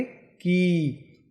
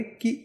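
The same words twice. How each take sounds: First: कि with the i held twice as long. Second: कि with a short, clipped i. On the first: Teacher shows the long ii matra, held out. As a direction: draw out the vowel in कि slowly. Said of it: "दुगना समय के लिए होगा". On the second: Teacher shows the short i matra in कि. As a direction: keep the i in कि brief. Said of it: "उसका उच्चारण कम समय के लिए होगा". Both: Shown as a demonstration.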